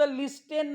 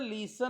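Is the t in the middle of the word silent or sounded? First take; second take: sounded; silent. First: The t in the middle is pronounced. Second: The t in the middle is silent. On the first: The speaker calls it wrong. "हा शब्द लिस्टेन नाही" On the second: The speaker calls it right. "हा शब्द लिसन आहे"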